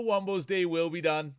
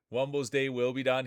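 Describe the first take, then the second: First: Raised, dramatic "Wumbo's day will be done"; excited call. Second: Said in the usual way. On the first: Real, not acted. Announcer dramatically calling Wumbo's elimination, excited. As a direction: call it out like a sports finish.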